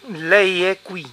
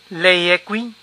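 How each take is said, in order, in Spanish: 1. La voz baja al final, como en una afirmación. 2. La voz sube al final, como en una pregunta.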